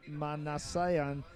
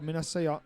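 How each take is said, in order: First: Manasseh said again very slowly and softly, syllable by syllable; slow, quiet second try at Manasseh; carefully sounding out Manasseh; careful retry of the name. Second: Manasseh- tried quickly and cut off mid-word; halting first try at Manasseh; first stab at the name. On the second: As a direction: rush at Manasseh and break off. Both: Real, not acted. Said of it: "uncouth pronunciation of your, uh, last name".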